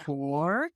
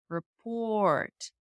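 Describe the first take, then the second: First: The pitch glides down then up on the last syllable. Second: The pitch glides up then down on the last syllable. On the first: It is a yes-no question. "go down and up instead of up and down" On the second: It is a statement. "up and down"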